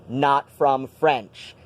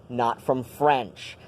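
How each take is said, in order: The two takes are said the same way.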